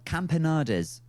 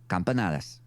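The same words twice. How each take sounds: First: It is said with an English accent. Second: It is said with a Spanish accent. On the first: The speaker calls it wrong. "I'm saying it in a horribly English way" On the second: The speaker calls it right. "I really wasn't expecting the accent to come through there"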